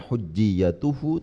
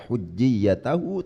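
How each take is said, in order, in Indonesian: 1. Vokal sebelum suku kata terakhir adalah u. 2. Vokal sebelum suku kata terakhir adalah a. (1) "dibaca rofa"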